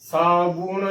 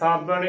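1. ਦੂਜਾ ਸਵਰ 'u' ਧੁਨੀ ਹੈ। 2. ਦੂਜਾ ਸਵਰ ਛੋਟੀ 'a' ਧੁਨੀ ਹੈ। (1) "ਇਸ ਦਾ ਸਹੀ ਉਚਾਰਨ ਹੈ" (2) "ਇਸ ਦਾ ਗਲਤ ਉਚਾਰਨ ਹੋਵੇਗਾ"

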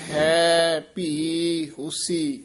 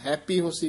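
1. ਸ਼ਬਦ ਵੱਖ-ਵੱਖ ਬੋਲੇ ਜਾਂਦੇ ਹਨ, ਥੋੜ੍ਹੇ ਜਿਹੇ ਵਿਸਰਾਮ ਨਾਲ। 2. ਸ਼ਬਦ ਬਿਨਾਂ ਕਿਸੇ ਵਿਸਰਾਮ ਦੇ ਇਕੱਠੇ ਬੋਲੇ ਜਾਂਦੇ ਹਨ। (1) "ਇਸ ਨੂੰ ਇਸ ਤਰ੍ਹਾਂ ਉਚਾਰਨ ਕਰਨਾ ਹੈ" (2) "ਇਕੱਠਾ ਨਹੀਂ ਕਹਿ ਦੇਣਾ"

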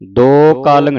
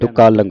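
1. ਪਹਿਲੇ ਅੱਖਰ ਵਿੱਚ ਲੰਮਾ 'o' ਸਵਰ ਹੈ। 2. ਪਹਿਲੇ ਅੱਖਰ ਵਿੱਚ ਛੋਟਾ 'u' ਸਵਰ ਹੈ। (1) "ਦੋ ਕਾਲੰਗ ਨਹੀਂ ਕਹਿਣਾ" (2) "ਦੁਕਾਲੰਗ ਪੜਨਾ ਹੈ"

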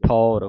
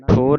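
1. ਸਵਰ ਖੁੱਲ੍ਹਾ 'au' ਦੀ ਆਵਾਜ਼ ਹੈ। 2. ਸਵਰ ਬੰਦ 'o' ਦੀ ਆਵਾਜ਼ ਹੈ। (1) "ਠੌਰ ਮੂੰਹ ਖੋਲ ਕੇ ਉਚਾਰਨ ਹੋਵੇਗਾ" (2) "ਠੋਰ ਨਹੀਂ ਕਹਿ ਦੇਣਾ"

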